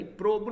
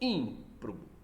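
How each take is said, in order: First: The stress is not on the third-to-last syllable. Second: The stress is on the third-to-last syllable. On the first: The speaker calls it wrong. "Não é improbo" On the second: The speaker calls it right. "são proparoxítonas"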